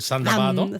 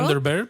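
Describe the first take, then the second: First: It is said with a Japanese-style pronunciation. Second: It is said with an English-style pronunciation. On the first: "los japoneses lo pronuncian" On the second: "El Thunderbird"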